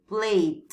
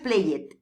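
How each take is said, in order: First: It is said as play plus a D. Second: The ending is said as an extra syllable. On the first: The speaker calls it right. "se pronuncia play y una D" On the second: The speaker calls it wrong. "No es played"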